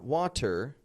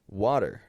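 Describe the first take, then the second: First: The middle t is a crisp, clear t. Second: The middle t is a soft d-like flap. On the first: "not water, that's British" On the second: "a flap T is a light D sound that comes between two vowels"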